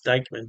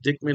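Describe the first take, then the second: First: The first vowel is long, as in 'like'. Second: The first vowel is short, as in 'kick'. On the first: The speaker calls it wrong. "I don't think it's Dykeman" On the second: The speaker calls it right. "I believe that's how you pronounce it"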